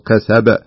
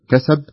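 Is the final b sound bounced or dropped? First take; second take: bounced; dropped. First: The final b is released with a clear bounce. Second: The final b is weak and nearly unheard. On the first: The speaker calls it right. "لا بد أن تقول كسب بهذا الشكل" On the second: The speaker calls it wrong. "ما تقول كسب يروح الحرف"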